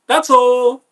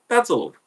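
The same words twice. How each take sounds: First: "That's all." pitched way up and pushed louder; a high sharp loud "That's all." to close the subject; loud high final "That's all.". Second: Said in the usual way. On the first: Shown as a demonstration. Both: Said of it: "repeats phrase two ways".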